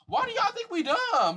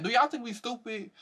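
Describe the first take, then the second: First: High, slow, disbelieving; incredulous. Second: High, quicker disbelief; incredulous. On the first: Asking viewers if they think we are dumb, high and slow. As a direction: stretch it out in disbelief. Repeated rhetorical question. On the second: Repeating the question to viewers, high and incredulous. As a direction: toss it off in disbelief. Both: Real, not acted.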